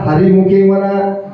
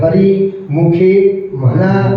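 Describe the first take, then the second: First: The first two words run together without a break. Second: There is a short break after the first word. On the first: The speaker calls it wrong. "असंच म्हणते लोक" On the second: The speaker calls it right. "हरी नाही म्हणत, हरी मुखे म्हणा असं म्हणायचं"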